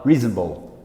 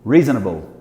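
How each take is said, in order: First: It is said with an American accent. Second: The same.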